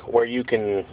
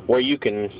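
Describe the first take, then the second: No difference in how they are said.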